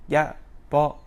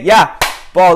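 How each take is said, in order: First: The call is said quietly and without energy. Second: The call is said loudly and with energy. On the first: The player lacks confidence. The speaker calls it wrong. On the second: The player is confident and demands the ball. The speaker calls it right.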